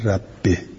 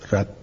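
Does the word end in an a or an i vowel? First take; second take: i; a. First: The word ends with an i vowel. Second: The word ends with an a vowel. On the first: This is the reading all reciters agree on. "اجمع او على کسر الباء" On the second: This is a rare reported reading. "نسب الباء"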